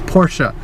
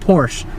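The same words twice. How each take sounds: First: The name is said as two syllables. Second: The name is said as one syllable. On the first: The speaker calls it right. "it's Porsche. Get it right" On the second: The speaker calls it wrong. "It's not Porsche"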